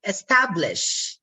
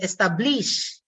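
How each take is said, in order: First: "establish" stressed on the middle syllable, es-TAB-lish; "establish" with a strong middle and light ending; standard stress. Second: "establish" stressed on the last syllable, esta-BLISH; "establish" said es-ta-BLEESH; Filipino-English stress. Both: Shown as a demonstration. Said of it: "instead of establish".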